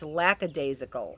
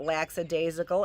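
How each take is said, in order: First: The first syllable sounds like 'lack'. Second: The first syllable sounds like 'lax'. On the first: The speaker calls it right. "it's lackadaisical, is what it is" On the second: The speaker calls it wrong. "It's not lackadaisical"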